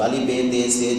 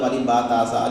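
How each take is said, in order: First: The letter names end in an 'e' vowel. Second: The letter names end in an 'a' vowel. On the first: This is the older majhool reading. "बा नहीं बल्कि बे पढ़ते थे उसको" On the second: This is the standard maroof reading. "मारूफ़ का मतलब अलिफ बा ता सा"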